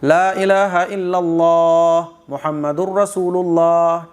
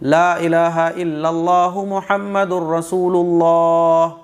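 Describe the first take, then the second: First: It breaks for breath right after illallah. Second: It runs on without a pause after illallahu. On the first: "अगर आप इल्लल्लाह पे सांस तोड़ोगे" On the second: "कलिमा तय्यबा होता है"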